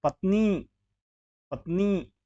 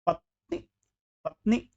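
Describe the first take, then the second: First: पत्नी as "patnee", end held; long ee. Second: पत्नी as "patni", quick ending; wrong short i. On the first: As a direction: stretch the final vowel of पत्नी. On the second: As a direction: clip the last vowel of पत्नी. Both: Shown as a demonstration. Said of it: "बड़ी की मात्रा".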